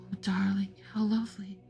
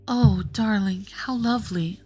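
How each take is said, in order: First: It is said quietly. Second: It is said more loudly.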